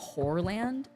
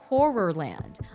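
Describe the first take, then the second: First: The syllables of the word are slurred together. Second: Every syllable of the word is clearly enunciated. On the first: The speaker calls it wrong. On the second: The speaker calls it right.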